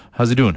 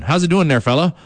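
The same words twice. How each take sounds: First: Said in the usual way. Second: Higher, hammed-up East Coast accent greeting. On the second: Shown as a demonstration. Radio host greets fans in his East Coast accent. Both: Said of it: "I speak in a, uh, East Coast accent".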